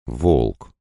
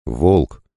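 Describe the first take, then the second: First: Hesitant. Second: Understated call by name. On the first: Лана leans over the waking wolf, calling hesitantly. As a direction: call the name tentatively, unsure of it. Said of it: "неуверенно позвала она". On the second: A voice from the light calls the wolf, calling out. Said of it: "позвал голос". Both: A narrator's reading.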